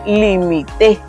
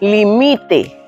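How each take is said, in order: First: The stress is on the last syllable. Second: The stress is on the middle syllable. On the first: It means I limited. "La sílaba tónica está en T" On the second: It means that one limits, subjunctive or command. "la que suena más fuerte es mi"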